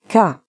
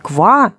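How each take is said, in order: First: The k goes straight into the vowel. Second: The k is followed by a v sound. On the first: The speaker calls it right. "а именно «ка»" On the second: The speaker calls it wrong. "Не «ква»"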